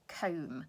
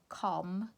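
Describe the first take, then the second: First: The vowel is long, like in 'home'. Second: The vowel is short, like in 'hot'. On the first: The speaker calls it right. "try it with the alternative" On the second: The speaker calls it wrong. "it doesn't sound quite right"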